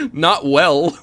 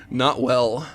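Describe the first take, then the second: First: Badly faked girl voice, loud and higher; mock girl's voice. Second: Said in the usual way. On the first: Streamer answers whether he can do it, in a mock girl's voice. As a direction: answer in a silly pretend girl's pitch. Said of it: "to a girl's voice".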